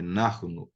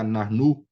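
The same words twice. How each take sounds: First: Teacher corrects the stress for students, NAR strong; corrected first-syllable stress. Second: Teacher shows students the wrong stress to avoid, stressing the end; wrong final stress. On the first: Say "narnu" with NU falling away lower. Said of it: "não, é narnu". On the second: Say "narnu" with the weight on NU. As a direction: stress on the last syllable of "narnu", nar-NU. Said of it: "Pra não ficar narnu". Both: Shown as a demonstration.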